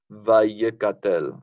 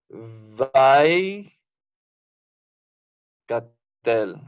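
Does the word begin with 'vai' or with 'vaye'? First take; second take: vaye; vai. First: It starts with two syllables sounding like vaye. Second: It starts with one syllable sounding like vai. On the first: The speaker calls it wrong. "No sería Vallecatel" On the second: The speaker calls it right. "pronuncie la combinación Patah Yod como Vai"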